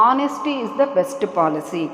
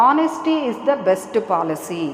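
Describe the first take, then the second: Both takes have the same delivery.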